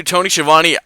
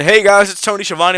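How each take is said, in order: First: Said in the usual way. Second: Higher, louder announcer hello; Tony Schiavone greeting. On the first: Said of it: "name said before impression". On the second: Retold or imitated. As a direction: belt it out like a cheery old wrestling host. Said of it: "but hearing".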